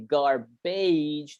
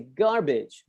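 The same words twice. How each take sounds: First: The ending is a long 'age' sound. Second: The ending is a short 'ij' sound. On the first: The speaker calls it wrong. "Even though it looks like age, we don't say garbage. That's wrong" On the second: The speaker calls it right. "We say garbage"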